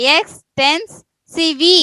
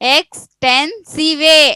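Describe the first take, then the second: First: The word ends with an added vee sound. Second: The word ends with an added vay sound. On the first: "ವಿ ಅನ್ಬೇಕಾ" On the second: "ವೇ ಅನ್ಬೇಕಾ"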